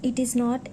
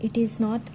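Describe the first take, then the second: Both takes have the same delivery.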